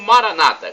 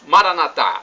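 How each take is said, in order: First: The stress is on the second-to-last syllable. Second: The stress is on the last syllable. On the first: This is how evangelicals or Protestants say it. "com a tônica na penúltima sílaba" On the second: This is how Catholics say it. "a tônica na última sílaba"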